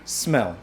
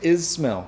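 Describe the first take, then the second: First: The word starts directly with the s. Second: A short vowel is added before the s. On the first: The speaker calls it right. "é smell. O primeiro som é S de sapo" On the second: The speaker calls it wrong. "Não é is smell"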